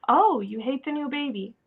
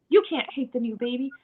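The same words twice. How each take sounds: First: An understanding "oh", falling at the end; accepting reflection. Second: Gently correcting, stress on "You"; mild contradiction. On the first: Parent reflects child's hate for new baby, accepting. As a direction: mirror the feeling back without judging. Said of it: "rather than questioning or". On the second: Parent corrects child who hates the new baby, mild contradiction. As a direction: tell the child they're wrong, mildly. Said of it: "telling them that's wrong". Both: Acted.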